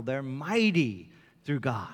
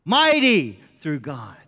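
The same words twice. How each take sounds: First: Said in the usual way. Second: Louder, slow and emphatic. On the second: Shown as a demonstration. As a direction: proclaim it with weight. Quote repeated for emphasis.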